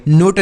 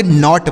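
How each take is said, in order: First: नोट with a closed, long "oh"; wrong vowel in नोट. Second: नॉट with an open "aw"; correct vowel in नॉट. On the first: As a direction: say नोट to rhyme with "boat". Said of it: "नोट नहीं पढ़ेंगे". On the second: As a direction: say नॉट like English "not". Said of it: "नॉट पढ़ेंगे". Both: Shown as a demonstration.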